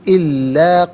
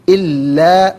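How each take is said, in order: Both takes have the same delivery.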